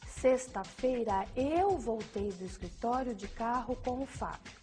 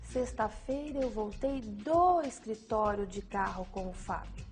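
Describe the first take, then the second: First: The stress falls on "eu". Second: The stress falls on "do escritório". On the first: Nobody else came back with him. "A ênfase no eu indica que nenhuma outra pessoa além de si mesma voltou" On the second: It tells where the return started. "A ênfase no do escritório indica o local da ação praticada"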